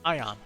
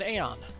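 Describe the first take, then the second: First: The word begins with an 'eye' sound. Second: The word begins with an 'ay' sound. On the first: The speaker calls it right. "They pronounce it Ion" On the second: The speaker calls it wrong.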